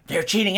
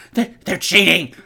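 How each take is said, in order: First: Said in the usual way. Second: Stammering, louder complaint; loud whiny stammer. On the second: Acted. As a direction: stumble over it in a panic. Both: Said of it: "he's all".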